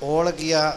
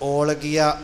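First: The L sound is light and plain. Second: The L sound is heavy and weighted. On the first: The speaker calls it wrong. "ਇਹਨੂੰ ਭਾਰਾ ਕਰਕੇ ਓਲ ਗਿਆ ਨਹੀਂ ਕਰਨਾ" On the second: The speaker calls it right. "ਭਾਰਾ ਕਰਕੇ"

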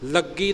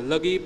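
First: The g sound is tight and doubled. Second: The g sound is soft and single. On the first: The speaker calls it wrong. "ਲੱਗੀ ਨਹੀਂ ਬੋਲਣਾ" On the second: The speaker calls it right. "ਲਗੀ ਪੋਲਾ ਬੋਲਣਾ"

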